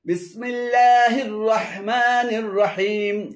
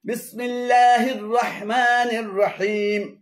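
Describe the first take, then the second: No difference in how they are said.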